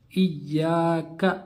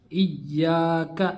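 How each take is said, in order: Both takes have the same delivery.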